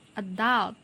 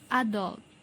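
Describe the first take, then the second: First: It is said in an American accent. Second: It is said in a British accent. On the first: "then the American English" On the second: "first for the British English"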